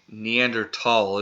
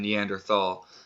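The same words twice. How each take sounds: First: The middle consonant is a plain t sound. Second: The middle consonant is a th sound. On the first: The speaker calls it right. "is a more accurate pronunciation" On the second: The speaker calls it wrong. "we're about to keep it phonic"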